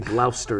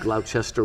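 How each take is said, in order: First: The middle syllable is dropped, giving two syllables. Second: The middle syllable is pronounced, giving three syllables. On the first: "They say Gloucester" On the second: "instead of Gloucester"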